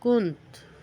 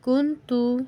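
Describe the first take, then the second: First: The word ends on a bare consonant. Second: The word ends with a final vowel.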